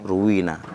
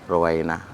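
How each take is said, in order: First: The middle syllable has a plain long ee vowel. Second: The middle syllable has an ai diphthong vowel. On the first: The narrator has no chain of transmission to the source. "makanya kita baca ruwi, ruwina" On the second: The narrator has a chain of transmission to the source. "maka kita baca ruwai, ruwaina"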